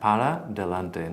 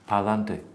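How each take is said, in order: First: Both words are said separately and fully. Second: The two words merge into one short word. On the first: It is the standard form. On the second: It sounds Andalusian or flamenco.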